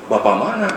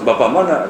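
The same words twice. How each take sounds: First: "Bapak mana?" with the tune rising on "mana", asking where; questioning rise. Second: "Bapak mana?" with the tune falling on "mana", asking which father; falling question. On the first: Young Musa asking where the father is, "mana" rising. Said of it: "Bapak mana?" Gitu kan". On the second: Musa asking which father is meant, "mana" falling. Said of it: "Gitu kan". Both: Retold or imitated.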